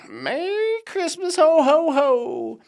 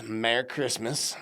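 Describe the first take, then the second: First: High, loud, drawn-out mock Santa holler; jolly Santa call. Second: Said in the usual way. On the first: Vlogger hamming up a card's Christmas greeting, jolly Santa call. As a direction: sing out the greeting, booming the ho-ho-hos.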